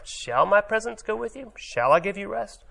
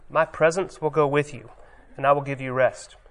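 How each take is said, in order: First: Much higher, doubting questioning tune. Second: Even, reassuring statement; a promise. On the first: Moses hears God's promise as a judgment, higher doubting question. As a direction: turn the promise into a challenge. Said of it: "Moses heard it as a question, as a judgment". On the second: God promises Moses his presence, calm reassuring promise. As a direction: say it as a plain promise. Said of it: "It sounds like a promise". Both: Shown as a demonstration.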